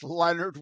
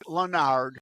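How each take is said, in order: First: The name is said without any o sound. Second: The name is said with an audible o sound. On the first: The speaker calls it right. "it's Leonard without an O" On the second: The speaker calls it wrong. "People want to pronounce it Leonard"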